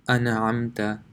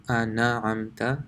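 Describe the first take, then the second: No difference in how they are said.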